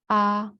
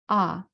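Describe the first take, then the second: First: It is said in the first tone. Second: It is said in the fourth tone. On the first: "in order from the first tone"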